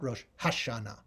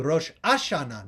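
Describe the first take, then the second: First: The second word starts with an h sound. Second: The second word starts without an h sound. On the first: This is the modern Israeli pronunciation. "not Rosh Hashana"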